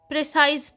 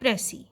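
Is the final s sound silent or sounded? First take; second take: sounded; silent. First: The word ends with a clear s sound. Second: The word ends in a vowel, no s. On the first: The speaker calls it wrong. "वो गलत pronounce करते हैं, प्रिसाइज पढ़ते हैं" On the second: The speaker calls it right. "इसकी ठीक pronunciation है प्रेसी और लास्ट लेटर इसका एस जो है वो साइलेंट रहेगा"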